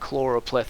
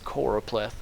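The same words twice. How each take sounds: First: The first syllable has an added L sound. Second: The first syllable has no L sound. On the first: The speaker calls it wrong. "It's not" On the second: The speaker calls it right. "there's no L there"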